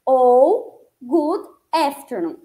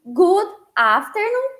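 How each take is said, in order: First: Good afternoon with a flat e-like a, efternoon; American way. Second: Good afternoon with a broad a, afternoon; British way. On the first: Teacher models American good afternoon. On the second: Teacher models British good afternoon. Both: Shown as a demonstration. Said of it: "citei duas formas".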